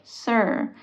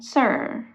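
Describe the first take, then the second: First: The R sound at the end is drawn out. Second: The same.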